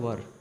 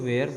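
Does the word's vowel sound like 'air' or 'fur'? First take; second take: fur; air. First: The vowel sounds like 'fur', as in 'were'. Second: The vowel sounds like 'air', as in 'wear'. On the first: The speaker calls it right. "But इसका सही उच्चारण होता है वर" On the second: The speaker calls it wrong. "शुरुआत में सीखते समय हम इसको वेयर बोलते हैं"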